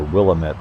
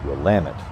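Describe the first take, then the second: First: Willamette is said the common outsider way. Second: Willamette is said the local residents' way. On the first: This is how visitors assume it is said. The speaker calls it wrong. "everyone thinks it's the Willamette River" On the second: This is how people who live there say it. The speaker calls it right. "the locals pronounce it Willamette"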